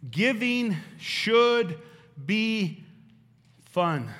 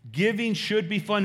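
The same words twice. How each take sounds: First: Very slow, each word stretched out; drawn-out emphasis. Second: Said in the usual way. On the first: Shown as a demonstration. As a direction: lean on every word, slowly. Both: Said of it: "Legacy point number two".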